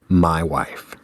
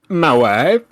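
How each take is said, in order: First: It is said in a plain, flat voice. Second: It is said in a put-on character voice. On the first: "I repeat" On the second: "here's the inflected quote"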